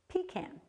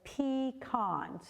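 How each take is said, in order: First: It is said the northern New England way. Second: It is said the Upper Peninsula way. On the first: "if you're from Vermont or uh, these northern New England states" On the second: "up in the Upper Peninsula, they have a few people that say pecan"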